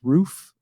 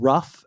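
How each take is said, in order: First: The vowel is a long 'oo' sound. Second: The vowel is a short 'uh' sound. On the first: The speaker calls it right. "now I know it's roof" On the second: The speaker calls it wrong. "I always said rough"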